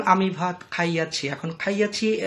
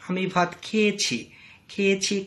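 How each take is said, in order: First: Put-on খাইয়াছি said in the old bookish form, khai-ya-chhi; old formal verb form. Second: খেয়েছি said in the short spoken form, khe-ye-chhi; everyday verb form. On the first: Teacher showing students the bookish খাইয়াছি. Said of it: "যদি কেউ না বলে". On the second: Teacher contrasting the spoken খেয়েছি for students. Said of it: "একই কথা". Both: Shown as a demonstration.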